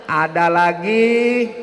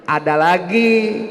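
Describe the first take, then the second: The two takes are said the same way.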